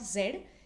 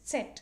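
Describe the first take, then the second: First: The letter begins with a plain z sound. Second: The letter begins with a ts sound. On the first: The speaker calls it wrong. "the pronunciation is not Z because the letter is not Z" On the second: The speaker calls it right. "In German, it's Z"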